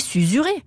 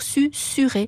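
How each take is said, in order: First: The middle consonants are voiced like z. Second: The middle consonants are voiceless like s. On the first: "Un S entre deux voyelles, j'ai toujours appris que ça faisait le son Z" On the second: "tous les dictionnaires préconisent de dire susuré"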